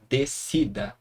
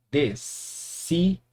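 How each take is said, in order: First: Said in the usual way. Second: "descida" as des, ci, da with pauses; split into syllables. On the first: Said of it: "Vamos pra mais um exemplo". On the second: Shown as a demonstration. Teacher showing how the word divides, syllable by syllable. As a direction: separate "descida" slowly into three pieces. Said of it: "Vai ficar assim".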